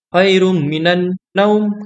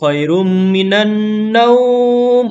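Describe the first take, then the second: First: The vowel in naum is held short. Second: The vowel in naum is drawn out long. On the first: The speaker calls it right. "naumnya pendek" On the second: The speaker calls it wrong. "Jangan dibalik"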